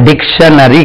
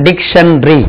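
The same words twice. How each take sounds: First: டிக்ஷனரி stretched into four syllables, dik-sha-na-ri; wrong pronunciation. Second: டிக்ஷனரி said in three quick syllables, dik-shun-ri; correct pronunciation. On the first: Teacher showing students the mistake to avoid, mock wrong take. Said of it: "அப்படி சொல்லக்கூடாது". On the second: Teacher showing students how to say dictionary, careful demo. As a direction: say டிக்ஷனரி as dik-shun-ri, the middle vowel swallowed. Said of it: "டிக்ஷனரிக்கு உச்சரிப்பு பாருங்க". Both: Shown as a demonstration.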